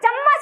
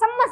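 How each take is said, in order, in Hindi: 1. शब्द की शुरुआत और अंत दोनों में च की ध्वनि होती है। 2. शब्द की शुरुआत और अंत दोनों में स की ध्वनि होती है। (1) "चम्मच ऐसे नहीं बोलते" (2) "सम्मस लाइयो"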